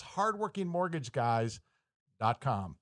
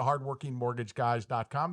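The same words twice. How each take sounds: First: Hardworking mortgage guys dot com spaced out slowly, pause before "dot com"; slow, careful repeat. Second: Said in the usual way. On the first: Real, not acted. Host repeats the web address for listeners, slow and spaced out.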